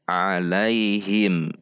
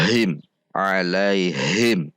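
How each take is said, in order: First: Said in the usual way. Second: "alaihim" with a heavy h heaved from the chest; overdone chest h. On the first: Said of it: "seperti biasa saja". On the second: Shown as a demonstration. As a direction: exaggerate the breath on h in "alaihim". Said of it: "berlebihan sehingga terkesan dari dada". ("alaihim" dengan ha berlebihan dari dada)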